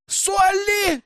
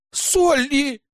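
First: Frightened scream. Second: Much higher, louder indignant cry of a name; indignant shout. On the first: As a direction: scream her name in fear. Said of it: "закричали испуганно подруги". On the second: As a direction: shout her name in outrage. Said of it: "хором возмущались девушки". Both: A narrator's reading.

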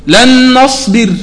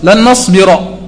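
First: لن نصبر slow, final ر stopped with sukun, no vowel; recited pausal form. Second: لن نصبر with the final ر voweled, nasbira; original form. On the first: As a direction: recite لن نصبر slowly, ending نصبر on a silent ر. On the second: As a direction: read لن نصبر at normal pace with a vowel after ر. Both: Shown as a demonstration. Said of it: "شنو أصل الفعل؟".

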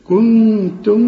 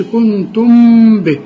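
First: كنتم with a hidden mim, lips barely open; lips slightly open. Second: كنتم به with the mim pressed shut, shown wrong; wrong closed lips. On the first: Teacher shows the right hidden mim. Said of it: "افتح شفايفك شوية". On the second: Teacher shows students the mistake. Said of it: "ما تقولش". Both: Shown as a demonstration.

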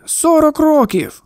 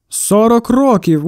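First: Higher pitch, slow, hammed-up lament; theatrical sigh. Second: Said in the usual way. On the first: A narrator's reading. Shopkeeper complains to the boy about his wife, theatrical groan. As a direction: sigh it out like a stage martyr. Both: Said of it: "театрально зітхнув".

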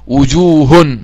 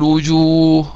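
First: "وجوه" said wujuhun, with a sounded n ending; "وجوه" drawn out as wu-juu-hun, tanween pronounced; tanween when continuing. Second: "وجوه" said wujuuh, no final -un; "وجوه" with a long uu, ending on a breathed h; pausal form. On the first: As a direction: end "وجوه" on a clear -un. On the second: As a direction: stop on the h of "وجوه", dropping the tanween. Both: Shown as a demonstration. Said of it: "عايز أقف أقول وجوه".

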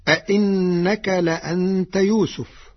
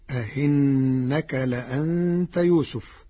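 First: أئنك with two firm glottal stops; both hamzas full. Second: أئنك with second hamza softened between hamza and ya; eased second hamza. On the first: Teacher cites the verse before changing it, full hamzas in أئنك. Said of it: "بتسهيل الهمزة الثانية بين بين". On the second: Teacher shows Warsh's reading, eased hamza in أئنك. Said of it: "بتسهيل الهمزة الثانية بين بين، فتصير". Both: Shown as a demonstration.

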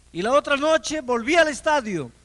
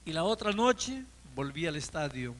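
First: Higher and much louder repeat; rising preacher's punch on the repeat; emphatic build. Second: Said in the usual way. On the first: Acted. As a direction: hammer the repetition home like a preacher. Repeated line, built up.

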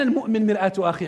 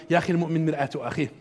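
First: Said in the usual way. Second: Fast, softer, tossed-off cliché; offhand dismissive quote. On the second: Retold or imitated. Lecturer mimics how people toss off the proverb, fast and offhand. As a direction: rattle it off like a worn saying. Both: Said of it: "احنا دائمًا نقولها".

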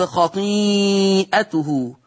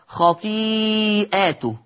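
First: Said in the usual way. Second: خطيئاته read as a plural, long ī stretched, then long ā after the hamza. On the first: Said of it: "قرأ ورش بالجمع". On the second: Shown as a demonstration. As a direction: hold the ī of خطيئاته long, then open to "ātuhu". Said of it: "قرأ ورش بالجمع هكذا". (خطيئاته بالجمع مع مدّ الياء)

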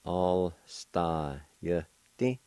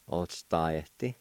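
First: Alstayeti drawn out very slowly, each syllable stretched; slow syllable demo. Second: Said in the usual way. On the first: Shown as a demonstration. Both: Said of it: "It's pronounced like this".

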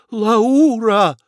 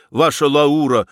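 First: High, loud cry of amazement; exclaiming. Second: Said in the usual way. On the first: A narrator's reading. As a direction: cry out the name in excitement. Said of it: "воскликнул Федяшев". (восторженно воскликнуть)

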